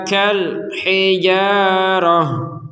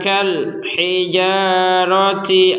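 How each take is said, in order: First: The last word ends with an h sound. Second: The last word ends with a -ti sound. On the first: The reading stops at this word. "Kita coba berhenti ya" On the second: The reading continues on without stopping. "kalau barusan kita lanjut ya"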